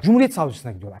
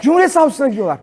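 First: Said in the usual way. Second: High, loud repeat in disbelief; incredulous shout. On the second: Real, not acted. Comedian on cult members going to the prosecutor, shouted disbelief. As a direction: shout the absurd fact out to the room.

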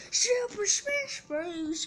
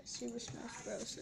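First: Slow, high, stretched hype yell; hype announcer shout. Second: Said in the usual way. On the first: Pretend. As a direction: belt the title like an announcer.

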